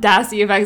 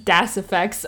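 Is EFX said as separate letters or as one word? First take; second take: separate letters; one word. First: EFX is spelled out as separate letters. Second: EFX is said as one word, effects. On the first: The speaker calls it wrong. "It's not Das EFX, I'm just stupid and read things literally" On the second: The speaker calls it right. "it's Das FX"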